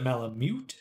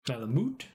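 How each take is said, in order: First: Malamute ending in "myoot"; "mute" like muting. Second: Malamute ending in "moot"; own "moot" version. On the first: Streamer asking chat if it's said that way, Malamute ending "myoot". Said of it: "Like you'd mute the sound". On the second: Streamer checking their own habit, Malamute ending "moot". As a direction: say Malamute with plain oo, no y-glide. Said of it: "my brain wants to say it Malamute". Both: Shown as a demonstration.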